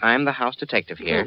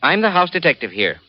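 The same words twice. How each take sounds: First: It is said weakly and hesitantly. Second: It is said firmly and with authority.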